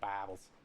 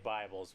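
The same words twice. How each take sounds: First: It is said in a Southern US accent. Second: It is said in a plain, neutral accent.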